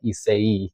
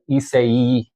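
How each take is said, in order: First: Isai said ee-SAY, final vowel nearly silent; Isai, ending dropped quiet. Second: Isai said ee-SAY with a soft ending; Isai, quiet ending. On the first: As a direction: say Isai, swallow the last bit. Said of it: "the last part is pretty quiet". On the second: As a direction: say Isai as ee-SAY, let the last part fade. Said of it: "if it's pronounced Isai". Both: Shown as a demonstration.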